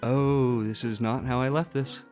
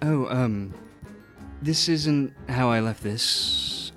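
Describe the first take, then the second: First: It is said in the speaker's normal voice. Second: It is said in an Octavian impression voice.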